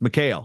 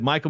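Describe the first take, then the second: First: The name is pronounced as Mikhail, not Michael. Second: The name is pronounced like the English name Michael. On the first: The speaker calls it right. "hey, it's Mikhail" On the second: The speaker calls it wrong. "I said Michael McGee at the Midlands"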